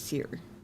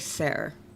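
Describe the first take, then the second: First: The name sounds like 'seer'. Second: The name sounds like 'ser'. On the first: The speaker calls it right. "but it's Seer" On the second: The speaker calls it wrong. "I always want to say Ser"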